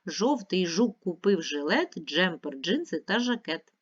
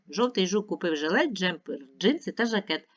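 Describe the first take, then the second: First: The line is read at a faster pace. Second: The line is read at the fastest pace. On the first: "Швидше" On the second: "Ще швидше"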